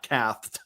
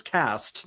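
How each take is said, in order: First: Cathed with a lisped th for the s; cathed, said with a mock lisp. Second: Said in the usual way. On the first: Shown as a demonstration. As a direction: say cathed, th in place of s, mocking the lisp. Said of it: "He said he was cast". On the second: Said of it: "not cathed".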